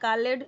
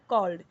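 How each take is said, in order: First: The word is said with two syllables. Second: The word is said with one syllable. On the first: The speaker calls it wrong. "या कॉलेड या कॉलेड नहीं" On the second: The speaker calls it right.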